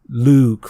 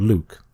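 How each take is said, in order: First: The vowel is drawn out long. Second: The vowel is kept short. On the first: The speaker calls it right. "a longer U sound is best" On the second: The speaker calls it wrong. "rather than"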